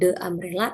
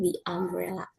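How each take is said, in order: First: 'The' is said with a short 'thuh' vowel. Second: 'The' is said with a long 'thee' vowel. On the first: The speaker calls it wrong. "Bukan the umbrella" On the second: The speaker calls it right. "tapi the umbrella"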